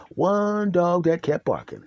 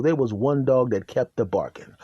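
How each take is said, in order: First: "One" drawn out long, then the rest slow; stress on One. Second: Said in the usual way. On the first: Real, not acted. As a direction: stretch the word "One" for emphasis. Repeats phrase for emphasis.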